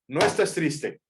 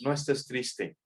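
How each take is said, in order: First: It is said firmly, like an order. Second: It is said softly, like friendly advice. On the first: The listener is being ordered. "Eso es un imperativo, le está dando una orden" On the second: The listener is being advised. "Eso es un consejo"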